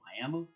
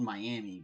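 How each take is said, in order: First: The word ends with an 'uh' vowel. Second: The word ends with an 'ee' vowel. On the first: This is how locals say the town's name. "we pronounce it Miami. Like it has an A at the end" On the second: This is the reading the spelling suggests. "spelled Miami"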